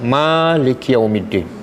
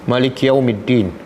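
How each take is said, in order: First: The first vowel of Maliki is long. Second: The first vowel of Maliki is short.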